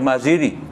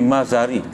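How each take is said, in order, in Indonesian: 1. Vokal kedua adalah bunyi 'i'. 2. Vokal kedua adalah bunyi 'a'. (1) "setengah orang baca Maziri" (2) "tapi Mazari"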